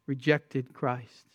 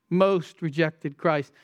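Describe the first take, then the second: First: Said in the usual way. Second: Most slowed and leaned on; stress on most. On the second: Shown as a demonstration. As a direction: hit the word Most, slowly.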